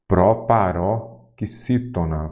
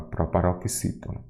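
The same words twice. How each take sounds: First: Proparoxítona stretched slowly in separate chunks; slow teacher's breakdown of "Proparoxítona"; syllable by syllable. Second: Said in the usual way. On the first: Shown as a demonstration. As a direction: sound out "Proparoxítona" slowly, pausing after "paró".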